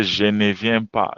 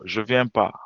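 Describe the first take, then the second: First: Said in the usual way. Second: "je viens pas" run together with no "ne"; casual dropped ne. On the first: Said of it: "I don't have to say". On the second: Shown as a demonstration. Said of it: "I can deduct the N".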